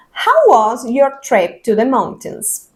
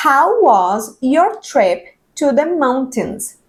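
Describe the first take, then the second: First: Slow model sentence for repeating; slow English demo. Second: Very slow, each sound drawn out; slow simplified reading. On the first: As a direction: read it slowly, word by word. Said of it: "Voy a leerlo contigo y tú repites". (lectura lenta para repetir) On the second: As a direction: read the simplified spelling slowly. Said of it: "vas a ir leyendo". (lectura muy lenta con la pronunciación simplificada) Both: Shown as a demonstration.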